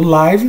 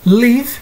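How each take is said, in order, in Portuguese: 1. A vogal é um som de 'ai' longo. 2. A vogal é um som de 'i' curto. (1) "estou me referindo ao show, apresentação" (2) "significa morar ou viver. Estou falando do verbo"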